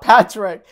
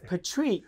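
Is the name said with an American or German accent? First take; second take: American; German. First: The name is said with an American accent. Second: The name is said with a German accent. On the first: "not Patrik" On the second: "because of the accent of the German, it's Patrik"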